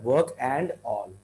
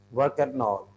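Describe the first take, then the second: First: "and" with a full D before "all"; unlinked. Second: "work and all" as "work-an-all"; linked. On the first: Teacher shows what to avoid, emphasised D in "and". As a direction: separate "work", "and", "all". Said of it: "the D is going to have". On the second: Teacher shows the preferred sound, linked "work and all". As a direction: join "and" onto "all", D dropped. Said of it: "Rather than work and all". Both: Shown as a demonstration.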